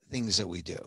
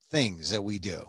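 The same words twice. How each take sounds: The two takes are said the same way.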